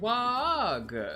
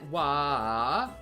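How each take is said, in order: First: The word ends with a hard G sound. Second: The word ends without a G sound. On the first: The speaker calls it wrong. "or is it wag?" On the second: The speaker calls it right. "do you pronounce the G? Is it wa"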